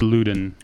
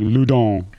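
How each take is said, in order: First: The name is pronounced in an anglicized way. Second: The name is pronounced in a French way. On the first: "It's Loudon" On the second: "the French pronunciation is probably more like Loudon"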